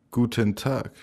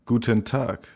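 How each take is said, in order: Both takes have the same delivery.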